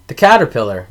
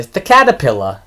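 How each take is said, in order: First: Said in the usual way. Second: CATERPILLAR ending in "pilla", no R; dropped-R caterpillar. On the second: Retold or imitated. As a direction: say caterpillar as "catapilla". Acts out mispronouncing movie quote.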